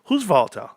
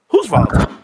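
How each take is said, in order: First: Said in the usual way. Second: Louder, punched repeat; loud exclaim. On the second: Real, not acted. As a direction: throw it out loud to chat.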